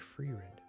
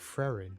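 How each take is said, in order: First: The first vowel sounds long, as in 'free'. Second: The first vowel sounds short, as in 'fret'. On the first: The speaker calls it right. "it's actually" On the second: The speaker calls it wrong. "I've been saying it wrong"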